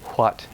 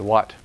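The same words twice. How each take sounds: First: It starts with a breathy, voiceless w sound. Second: It starts with a plain, voiced w sound. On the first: It sounds overly formal. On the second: It is the standard modern way.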